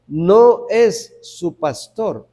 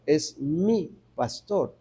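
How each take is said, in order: First: "No" hit first and slowly, "No es su pastor"; slow, firm denial on "No"; stress on NO. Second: "mi" stressed, softer and slow. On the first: (acento en "No", lento y firme) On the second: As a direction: lean softly on "mi" in "es mi pastor". (acento en "mi", suave y lento) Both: Shown as a demonstration.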